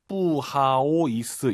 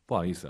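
First: It is said slowly, syllable by syllable. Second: It is said quickly, run together.

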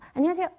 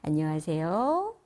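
First: The greeting is said quickly. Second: The greeting is said slowly.

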